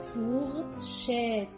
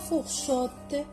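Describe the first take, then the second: First: The last syllable is pronounced 'chette'. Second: The last syllable is pronounced 'chotte'. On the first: The speaker calls it right. "on prononce chette" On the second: The speaker calls it wrong. "On ne dit pas fourchotte"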